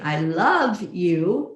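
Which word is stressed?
love. The stress is on "love".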